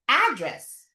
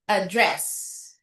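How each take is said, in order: First: The stress is on the first syllable. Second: The stress is on the second syllable. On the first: It is a noun naming a place. "Pag noun, nasa umpisa yung stress" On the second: It is a verb meaning to discuss. "pag verb, address. Nasa, nasa pangalawang syllable"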